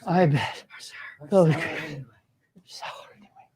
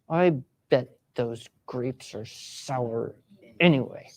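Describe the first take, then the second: First: It is said in an exhausted voice. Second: It is said in an irritated voice.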